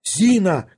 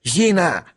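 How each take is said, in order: First: High, urgent call; raised-pitch summons, falling away; shouting. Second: Higher, panicky call; mildly scared, uncouth holler; frightened yell. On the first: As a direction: call sharply for the maid. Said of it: "кричал Барменталь". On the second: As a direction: call for help in alarm. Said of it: "орал испуганный Шариков". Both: A narrator's reading.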